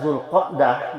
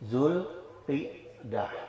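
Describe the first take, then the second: First: The vowel after the q is 'a'. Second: The vowel after the q is 'i'.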